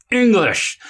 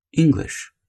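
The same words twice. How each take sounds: First: Sharp, much higher exasperated bark; snapping. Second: Calm and even. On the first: Parent barking at whining Billy, exasperated snap. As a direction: snap the word at him like an irritated parent. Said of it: "it's not gonna work". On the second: Parent to whining Billy, calm flat correction. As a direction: say it evenly to the child, no anger. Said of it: "did you hear my tone of voice?". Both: Shown as a demonstration.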